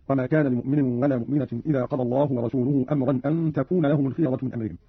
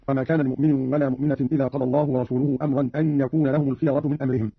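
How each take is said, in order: First: تكون begun with a t, "an takuna"; feminine ta. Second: Said in the usual way. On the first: Shown as a demonstration. Teacher shows Qalun's reading, تكون with feminine t. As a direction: say تكون with t in place of y. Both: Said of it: "قرأ قالون بالتاء على التأنيث".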